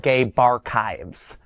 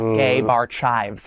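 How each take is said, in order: First: The last part sounds like the word archives. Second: The last part sounds like the word chives. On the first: The speaker calls it right. "I want to say it correctly this time" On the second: The speaker calls it wrong.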